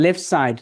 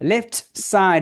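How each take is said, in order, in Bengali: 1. 'left'-এর t বাদ যায়। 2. 'left'-এর t উচ্চারিত হয়।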